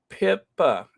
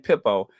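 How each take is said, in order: First: The name ends with an 'ah' vowel. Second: The name ends with an 'oh' vowel. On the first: The speaker calls it right. "Yes, that's it, Pippa" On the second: The speaker calls it wrong. "what I keep saying, Pippo"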